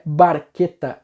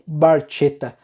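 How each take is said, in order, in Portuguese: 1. O consoante do meio é um k duro. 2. O consoante do meio é um ch suave. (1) "a pronúncia é Barqueta" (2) "e não Barchetta"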